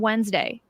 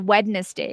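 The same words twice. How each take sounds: First: It is said the usual way, silent middle d. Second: It is said as spelled, middle d pronounced.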